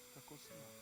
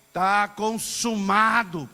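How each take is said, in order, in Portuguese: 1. É dita baixinho, sem força. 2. É gritada alto, com muita força. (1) "Às vezes a gente falava" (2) "Não, ... É um brado"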